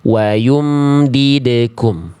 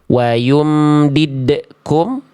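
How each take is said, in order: First: The echo on the d flows out freely. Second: The echo on the d is cut off abruptly. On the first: The speaker calls it right. "ini bacaan yang benar" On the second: The speaker calls it wrong. "ini bacaan yang salah"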